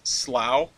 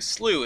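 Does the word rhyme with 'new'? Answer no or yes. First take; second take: no; yes. First: The word is said without the 'slew' vowel. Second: The word is said with the 'slew' vowel. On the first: This is the regional pronunciation used in New England. "where in the U S they pronounce it as Slough" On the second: This is the usual pronunciation across most of the country. "is typically pronounced S L E W, slew, in most of the United States"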